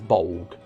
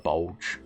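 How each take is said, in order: First: The word ends with a hard g sound. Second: The word ends with a soft j sound. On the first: The speaker calls it right. "you're supposed to pronounce the last part as Bolg" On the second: The speaker calls it wrong. "I prefer Bulge"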